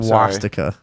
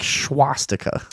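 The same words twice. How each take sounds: First: The word begins with a plain 's' sound. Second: The word begins with an 'sch' sound.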